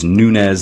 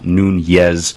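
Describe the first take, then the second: First: The name is said without a Spanish-style pronunciation. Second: The name is said with a Spanish-style pronunciation. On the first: The speaker calls it right. "It is Nunes" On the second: The speaker calls it wrong. "not Nunez, which is how we want to pronounce it because in America we're pretty familiar with, you know, Spanish language names"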